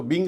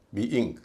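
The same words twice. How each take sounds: First: "बिंग" merged into one syllable; wrong pronunciation. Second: "बी इंग" with two separate vowels; two syllables. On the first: Teacher warning what not to say, merged syllable. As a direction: run "बिंग" together with one short i. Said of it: "इसको बिंग नहीं कहेंगे". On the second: Teacher modelling being for students, syllables kept apart. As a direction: say "बी इंग" as bee, then ing. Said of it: "बी इंग कहेंगे". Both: Shown as a demonstration.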